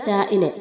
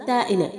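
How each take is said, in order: No difference in how they are said.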